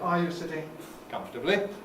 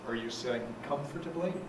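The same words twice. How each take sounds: First: Pitch stays fairly high before the final rise. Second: Pitch stays low before the final rise. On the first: "in Britain we tend to have a fairly high stuff before it" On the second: "Americans tend to stay down low before they rise"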